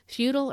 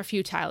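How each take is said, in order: First: "futile" as FEW-tl; "futile" rhyming with brutal; first pronunciation option. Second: "futile" as FEW-tile; "futile" ending like the word tile; second pronunciation option. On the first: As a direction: say "futile" with a reduced second syllable. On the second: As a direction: say "futile" with a long-i second syllable. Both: Shown as a demonstration. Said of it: "tell me, futile or futile".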